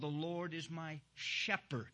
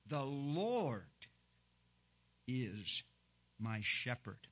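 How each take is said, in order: First: The word shepherd carries the emphasis. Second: The word Lord carries the emphasis. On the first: The Lord's role is that of a shepherd. "Sometimes the word shepherd may be the word that is stands out" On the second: It is the Lord who is the shepherd. "I say that with emphasis on the word Lord"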